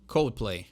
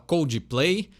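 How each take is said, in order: First: It is said with an English accent. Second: It is said with a Brazilian Portuguese accent. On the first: The speaker calls it right. "quer falar direitinho" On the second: The speaker calls it wrong. "aquela velha brasileirada"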